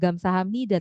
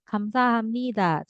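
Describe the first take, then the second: First: The word begins with a voiced g sound. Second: The word begins with a k sound. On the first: The speaker calls it wrong. "itu kan bukan gamsahamnida" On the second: The speaker calls it right. "tapi kamsahamnida"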